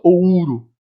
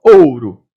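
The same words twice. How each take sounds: First: "ouro" as "o-Ú-ro", U made a full vowel; "ouro" with the U standing out over the O; wrong stress on U. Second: "ouro" as loud, drawn-out "ÔU-ro"; slow "ouro", strong O, weak U; correct stress on O. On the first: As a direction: split "ouro" and lean on the U. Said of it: "Eu não falo ouro". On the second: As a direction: punch the O and let U glide off in "ouro". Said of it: "Eu falo ouro". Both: Shown as a demonstration.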